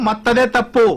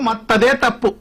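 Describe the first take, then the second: The two takes are said the same way.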